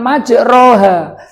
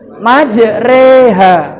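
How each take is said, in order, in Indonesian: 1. Vokal setelah r adalah a terbuka yang jelas. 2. Vokal setelah r condong ke bunyi e. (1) "bacanya bukan majroha" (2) "Tapi yang benar apa? Majreha"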